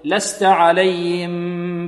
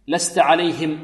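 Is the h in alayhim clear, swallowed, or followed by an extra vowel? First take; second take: swallowed; clear. First: The h sound is weak and barely heard. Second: The h sound is pronounced clearly. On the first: The speaker calls it wrong. "لأن بعض الطلاب ماذا يقول؟ يقول" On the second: The speaker calls it right. "لابد من توضيح الهاء"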